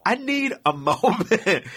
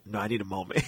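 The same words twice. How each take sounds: First: High, slow, spaced-out insistence; hammed-up slow pleading; insistent plea. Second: Low, hushed retold plea; very soft, drained refusal, acted; weak plea. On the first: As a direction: draw out each word, breaking into a laugh. Repeats plea, exasperated, in story. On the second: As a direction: let it sink like someone feeling sick. Sick teller pleading to sit.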